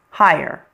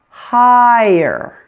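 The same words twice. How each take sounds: First: The word is said quickly, nearly one syllable. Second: The word is said slowly, almost two syllables. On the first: "When you say it a little bit faster" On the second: "when we slow it down a little bit"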